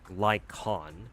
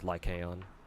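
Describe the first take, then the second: First: The name is said with the a dropped. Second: The name is said with all three syllables. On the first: This is the official pronunciation. "like the A is silent" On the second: This is the full form of the name. "I just pronounce his full name as Lycaon"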